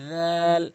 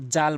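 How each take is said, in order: First: জাল as dhaal, long buzzing onset and held vowel; tongue tip at the teeth for জাল, drawn out; correct tongue-tip dh. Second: জাল with a short, hard j; mistaken hard j. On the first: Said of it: "জিহ্বার আগা". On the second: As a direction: say জাল wrongly, as jaal. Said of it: "অধিকাংশ লোক জাল বলে". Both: Shown as a demonstration.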